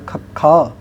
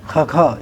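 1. ਇਹ ਸਾਹ ਵਾਲੇ k ਸਟਾਪ ਨਾਲ ਸ਼ੁਰੂ ਹੁੰਦਾ ਹੈ। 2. ਇਹ ਗਲੇ ਤੋਂ ਨਿਕਲਣ ਵਾਲੀ ਖਰ੍ਹਵੀਂ ਸਿਸਕਾਰੀ ਨਾਲ ਸ਼ੁਰੂ ਹੁੰਦਾ ਹੈ। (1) "ਤੀਸਰਾ ਅੱਖਰ ਆ ਗਿਆ ਖੱਖਾ" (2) "ਇਸ ਤਰ੍ਹਾਂ ਜਿਵੇਂ ਗਲਾ ਖਰਾਬ ਹੁੰਦਾ ਹੈ, ਗਲ ਦੇ ਵਿੱਚੋਂ ਆਵਾਜ਼ ਆਉਣੀ"

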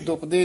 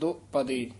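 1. ਸ਼ਬਦ ਤੇਜ਼ੀ ਨਾਲ ਇੱਕੋ ਝਟਕੇ ਵਿੱਚ ਬੋਲਿਆ ਜਾਂਦਾ ਹੈ। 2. ਪਹਿਲਾ ਹਿੱਸਾ ਵਿਚਕਾਰ ਵਿਰਾਮ ਨਾਲ ਖਿੱਚ ਕੇ ਬੋਲਿਆ ਜਾਂਦਾ ਹੈ। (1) "ਇਹਨੂੰ ਦੁਪਦੇ ਨਹੀਂ ਕਹਿ ਦੇਣਾ" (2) "ਦੱਦੇ ਤੇ ਪੱਪੇ ਦੇ ਵਿੱਚ ਡੈਸ਼ ਜੀ ਦੇ ਕੇ ਲਮਕਾ ਕੇ"

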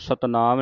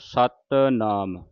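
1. ਦੋਵੇਂ ਹਿੱਸੇ ਜੋੜ ਕੇ ਬੋਲੇ ਜਾਂਦੇ ਹਨ। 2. ਦੋਵੇਂ ਹਿੱਸੇ ਵੱਖ-ਵੱਖ ਰੱਖੇ ਜਾਂਦੇ ਹਨ।

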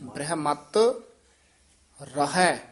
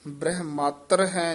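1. ਦੋਵਾਂ ਸ਼ਬਦਾਂ ਵਿਚਕਾਰ ਛੋਟਾ ਜਿਹਾ ਵਿਰਾਮ ਹੈ। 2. ਸ਼ਬਦ ਇਕੱਠੇ ਬੋਲੇ ਜਾਂਦੇ ਹਨ, ਕੋਈ ਵਿਰਾਮ ਨਹੀਂ। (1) "ਨਖੇਰ ਕੇ ਪੜਨਾ ਹੈ। ... ਥੋੜਾ ਜਿਹਾ ਰੁਕ ਕੇ ਬੋਲਾਂਗੇ" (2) "ਇਹ ਵੀ ਪਾਠ ਬ੍ਰਹਮਾਤਰ ਹੈ ਨਹੀਂ ਕਹਿਣਾ"

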